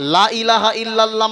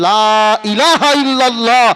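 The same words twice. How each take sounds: First: The vowel of the first 'la' is short. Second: The vowel of the first 'la' is long. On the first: There are other gods besides God. The speaker calls it wrong. "লা ইলাহা যদি টান না দেয় তাহলে বলা হবে" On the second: There is no god besides God. The speaker calls it right. "আল্লাহ ছাড়া কোনো মাবুদ নাই"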